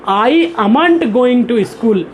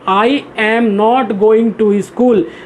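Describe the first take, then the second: First: 'Am not' is shortened into one word. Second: 'Am not' is said as two full words. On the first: This is how people who know English well say it. "वो short में ऐसा भी बोलते हैं" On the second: This is how new learners of English say it. "जो लोग नए अंग्रेजी सीखते हैं, फर्स्ट टाइम सीखते हैं, वो क्या बनाएंगे?"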